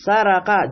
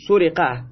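First: سرقه said slowly as "saraqa", all a vowels; active-form سرقه, open a in each syllable; active vowelling. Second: سرقه said "suriqa", u then i; passive-form سرقه, rounded u then kasra i; passive vowelling. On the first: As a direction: sound out سرقه as "sa-ra-qa". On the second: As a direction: sound out سرقه as "su-ri-qa". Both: Shown as a demonstration. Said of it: "این شیوه مجهول کردن ماضی".

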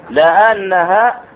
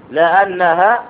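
Both takes have the same delivery.

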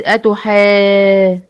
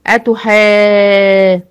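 First: أتحا- with the alif drawn out very long; long madd. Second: أتحا- stretched, long and louder; drawn-out أتحا- with a louder hold; long madd. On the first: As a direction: hold the madd in أتحا- for six counts. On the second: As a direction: sustain the alif of أتحا- for six counts. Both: Shown as a demonstration. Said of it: "مد أهو".

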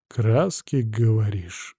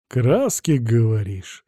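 First: Stern. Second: Sarcastic repeat, rising on Краски. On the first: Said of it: "сурово молвил я". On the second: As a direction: drip sarcasm on Краски, говоришь. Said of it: "саркастически повторил я". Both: A narrator's reading.

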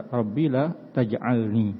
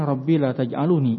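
First: Taj'alni slowly, no vowel after the l; correct jussive reading. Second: Taj'aluni with a voiced u after the l; extra u in taj'aluni; wrong indicative reading. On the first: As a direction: say taj'alni, closing the l before ni. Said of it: "Yang benar". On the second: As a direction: say taj'aluni, adding lu before the final ni. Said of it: "Ini keliru". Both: Shown as a demonstration.

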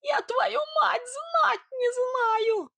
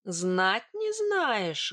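First: Very high, slow squealed denial; piping, drawn-out protest; squeaking. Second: Very slow, drawn-out challenge; menacing, stretched-out question; angry disbelief. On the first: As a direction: squeal it out far above your own voice. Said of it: "пропищал Сидор". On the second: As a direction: echo it slowly with restrained anger. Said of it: "гневно прищурилась я". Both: Acted.

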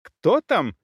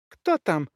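First: Higher, more urgent woman's call; repeated cry. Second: Higher-pitched woman calling through a door; startled call, lightly squealed; woman's mild squeal. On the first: Woman calls at intruders a second time, alarmed cry. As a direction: call it out sharply through the door. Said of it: "крик повторился". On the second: Woman behind the door hears creaking stairs, startled squeal. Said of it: "взвизгнула за дверью женщина". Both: A narrator's reading.

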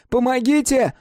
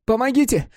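First: High, even louder cry; louder shout for help. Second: High raised cry for help; shouting for help. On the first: Mark crying again for help, higher and louder. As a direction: push the second cry further. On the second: Mark crying for help at the guard, high and raised. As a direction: yell it out, high. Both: A narrator's reading. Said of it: "Крики Марка".

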